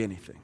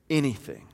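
First: Much lower and softer echo of Anything; congregation echo. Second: Said in the usual way. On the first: Shown as a demonstration. Pastor leading the congregation in a hushed, low call and response. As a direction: quietly repeat "Anything" back. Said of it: "Everybody say". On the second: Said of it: "He goes on to say".

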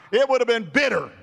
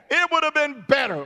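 First: "bitter" punched with a short I, loud and high; preacher's raised voice landing on "bitter". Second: "better" punched with a short E, high; preacher's raised voice landing on "better". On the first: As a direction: stress "bitter", vowel as in "bit". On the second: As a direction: stress "better", vowel as in "bet". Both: Shown as a demonstration. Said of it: "Let's change that E and put an I".

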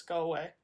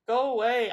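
First: Said in the usual way. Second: Louder, moaning go away. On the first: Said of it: "I moaned". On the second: A narrator's reading. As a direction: moan it out loudly. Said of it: "I moaned again".

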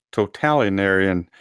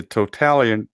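First: Totalitarian with every syllable sounded; careful retry. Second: Totalitarian tripped over, middle syllables swallowed; stumbled word. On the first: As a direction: sound out totalitarian in full, to-tal-i-tar-i-an. Second careful try after stumbling. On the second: Stumbles, then tries the word again. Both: Real, not acted.

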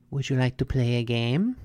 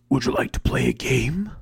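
First: Said in the usual way. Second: Sinister whispered movie villain; Jigsaw from Saw. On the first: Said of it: "and she's like". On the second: Acted. Brain jumps to the Saw movie, sinister whisper. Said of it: "Ha, Saw".

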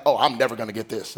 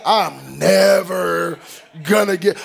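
First: Quick, low, resigned mutter; defeated sigh. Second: Very slow, stretching "never"; drawn-out despair. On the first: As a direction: give up before you start, rushing it. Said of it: "was like". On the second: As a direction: drag "never" out like it hurts. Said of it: "first day of class". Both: Retold or imitated.

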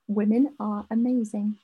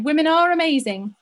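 First: Said in the usual way. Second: "Women are amazing" said louder with "are" pushed up; emphatic agreement. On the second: Acted. Echoing the listener's letter, emphatic and loud. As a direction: agree with it loudly, leaning on "are". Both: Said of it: "which is basically what we just said".

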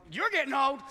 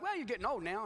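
First: Loud, higher comeback; mock-offended retort. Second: Said in the usual way. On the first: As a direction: throw it back at the doctor, loudly. Acted retort to the doctor.

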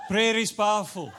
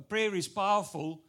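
First: "Prayer is powerful" said louder, stressing Prayer; emphatic message. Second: Said in the usual way. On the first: Shown as a demonstration. Preacher driving home his point, loud stress on Prayer. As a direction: punch out Prayer as the takeaway. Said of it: "that's my message to you today".

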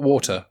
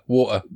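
First: Said in the usual way. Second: "water" with the middle T swallowed; southern "water", apostrophe in place of T; dropped T. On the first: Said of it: "Not water". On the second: Shown as a demonstration. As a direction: say "water" with a glottal stop for the T. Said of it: "put an apostrophe on there".

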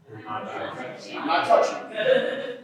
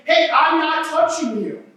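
First: Much lower, slow, breathy sing-song taunt; teasing taunt. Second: A touch of the bratty taunt, slightly higher; lightly mock the rule-dodger; mild teasing taunt. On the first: Retold or imitated. Pastor as little brother taunting his sister, low slow tease. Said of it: "what would I say?". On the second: Pastor mocking people who barely keep rules, light taunt. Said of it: "walking around saying".

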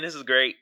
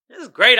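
First: Said in the usual way. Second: Louder, punchier second take of great; louder excited repeat. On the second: Real, not acted. To his audience, relishing the comedy beef, louder and excited. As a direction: pump it up the second time, hit great.

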